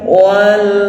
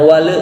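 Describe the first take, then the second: First: The l ends cleanly without a bounce. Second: The l ends with an added bounce. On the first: The speaker calls it right. "walnya di sini harus jelas" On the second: The speaker calls it wrong. "tidak boleh terpantul"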